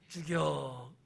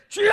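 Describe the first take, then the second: First: It is mumbled weakly and half-heartedly. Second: It is shouted loudly and fervently.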